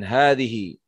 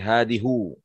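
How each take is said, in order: First: The word ends with an 'i' vowel. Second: The word ends with a 'u' vowel. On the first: The speaker calls it right. "Kemudian hadhihi" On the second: The speaker calls it wrong. "nggak bisa berubah menjadi hadihu"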